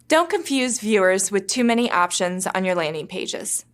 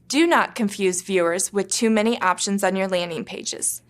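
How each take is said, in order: First: The opening words are contracted to 'don't'. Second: The opening words are said in full, 'do not'. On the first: It sounds like friendly, helpful advice. The speaker calls it right. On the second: It sounds robotic and harsh. The speaker calls it wrong. "without contractions"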